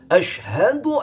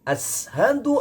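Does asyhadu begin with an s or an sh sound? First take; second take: sh; s. First: The word has an sh sound. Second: The word has a plain s sound. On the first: The speaker calls it right. "bukan sin kecil, melainkan sin besar" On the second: The speaker calls it wrong. "itu salah. Berarti bukan huruf shin tapi huruf sin"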